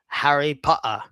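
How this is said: It is said in a strong English accent. "a strong English guy will say"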